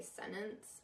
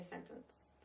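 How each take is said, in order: First: "sentence" with the middle T dropped. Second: "sentence" with a crisp middle T; articulated T. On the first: Coach showing what she wouldn't say, "sentence" without its T. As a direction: say "sentence" like "sennence". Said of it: "I wouldn't say sentence". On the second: Coach giving her own way, "sentence" with the T sounded. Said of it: "articulate a little bit more". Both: Shown as a demonstration.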